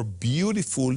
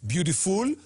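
First: "beautiful" with the accent on BEAU; "beautiful" stressed correctly, BEAU-ti-ful; stress on the first syllable. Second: "beautiful" with the accent on its final syllable; "beautiful" mis-stressed on FUL; stress on the last syllable. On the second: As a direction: say "beautiful" wrongly stressed at the end, beau-ti-FUL. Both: Shown as a demonstration. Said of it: "putting the accent".

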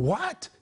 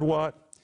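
First: "What?" pitched high with a sharp rise; emphatic questioning. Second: Said in the usual way. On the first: Acted. Preacher voicing James's challenge, emphatic rising "What?". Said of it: "It is an emphatic saying". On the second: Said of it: "And the word".

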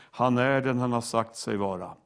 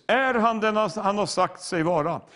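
First: "Han är den" stated low and evenly; lower-pitched, certain statement falling to "vara"; settled affirmation. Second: Higher-pitched challenge on "Är han"; raised preacher's question, leading with "Är"; rhetorical question. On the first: Settled answer to the question. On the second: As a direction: pose "Är han den" as a lifted, open challenge. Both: Shown as a demonstration.

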